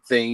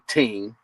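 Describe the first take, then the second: First: It is said with a standard th sound. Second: It is said in patois, th as t.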